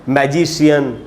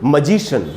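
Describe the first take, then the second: First: The ending is said as two syllables, shee-un. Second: The ending is said as one syllable, shun. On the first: The speaker calls it wrong. "न कि" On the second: The speaker calls it right. "बोलना चाहिए"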